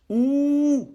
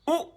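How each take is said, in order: First: The vowel is drawn out long. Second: The vowel is short.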